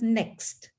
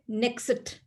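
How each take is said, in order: First: The final consonants run together with no vowel. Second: An extra vowel is slipped between the final consonants. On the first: This is how native English speakers say it. The speaker calls it right. "In English language, they pronounce as next" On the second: This is how non-native speakers say it. The speaker calls it wrong. "non-English speakers usually say next... So they try to put something in between"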